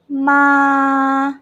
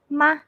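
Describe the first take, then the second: First: The pitch stays flat and level. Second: The syllable is very short and light. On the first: "this one is a flat" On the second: "Very short and very light"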